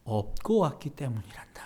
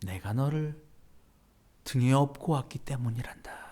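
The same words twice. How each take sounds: First: Whispered tender answer. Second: Gentle repeat. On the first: Jesus whispering comfort to the believer. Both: Retold or imitated. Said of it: "예수님께서 이렇게 얘기하셨다는 거죠".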